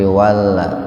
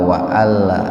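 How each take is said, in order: First: 'Wa' runs straight into 'alla' without a catch. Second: A glottal catch separates 'wa' from 'alla'. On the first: The speaker calls it right. "tapi walla" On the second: The speaker calls it wrong. "Jadi enggak wa'alla, enggak begitu"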